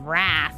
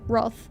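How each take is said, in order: First: It is said with a flat vowel, like 'rath'. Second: It is said with an English vowel, like 'Roth'. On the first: The speaker calls it wrong. "instead of Wrath" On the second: The speaker calls it right. "you lovely Englishman, for pronouncing it Roth"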